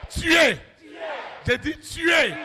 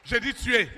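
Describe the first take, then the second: First: Higher, shouted repeat with weight on tuer; commanding shout. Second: Said in the usual way. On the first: Acted. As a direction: hammer tuer home.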